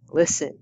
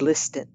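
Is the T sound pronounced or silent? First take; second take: silent; pronounced. First: The T sound is silent. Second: The T sound is pronounced. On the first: The speaker calls it right. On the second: The speaker calls it wrong.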